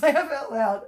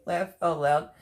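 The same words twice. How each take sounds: First: Bursting out laughing. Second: Said in the usual way. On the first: Real, not acted. Host rereading a viewer's name, bursting out laughing. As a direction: Laugh out loud shrieked high and loud through a laugh.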